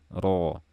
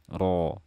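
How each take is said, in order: The two takes are said the same way.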